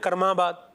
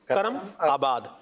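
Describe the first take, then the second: First: The two parts are run together into one word. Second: The name is said as two separate parts. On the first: This is how it is said in Punjabi. "इसको पंजाबी में कैसे बोलते हैं?" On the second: This is the original form of the name. "असल नाम क्या है?"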